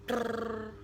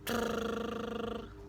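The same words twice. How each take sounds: First: The lip trill is held only briefly. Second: The lip trill is held somewhat longer. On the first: "Yang pertama" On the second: "Set yang kedua lebih panjang lagi daripada set yang pertama"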